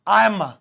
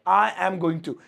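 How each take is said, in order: First: The phrase is squeezed into a short form. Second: Every word of the phrase is said fully.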